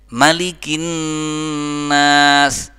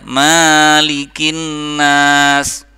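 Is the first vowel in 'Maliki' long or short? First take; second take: short; long. First: The first vowel 'ma' is kept short. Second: The first vowel 'ma' is drawn out long. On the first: The speaker calls it right. "Mahnya pendek" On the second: The speaker calls it wrong. "Tolong mahnya nggak boleh panjang. Jangan dibaca"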